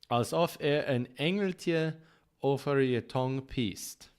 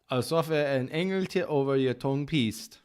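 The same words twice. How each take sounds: First: The phrase is spoken at a slow pace. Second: The phrase is spoken at a quick pace.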